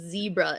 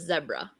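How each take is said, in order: First: It has the American pronunciation. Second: It has the British pronunciation.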